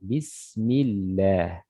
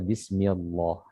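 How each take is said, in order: First: The L sound in Allah is light and thin. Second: The L sound in Allah is heavy and thick. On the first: The speaker calls it right. "di sini dibaca tipis" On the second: The speaker calls it wrong. "Tidak boleh dibaca"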